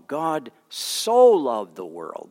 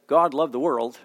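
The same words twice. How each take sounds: First: "so" stretched long, slow and weighty; stress on so. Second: Said in the usual way. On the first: Shown as a demonstration. Pastor stressing "so" for the congregation, slow and weighty. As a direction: lean hard on "so" in "God so loved the world". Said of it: "But no". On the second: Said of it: "He could have just said".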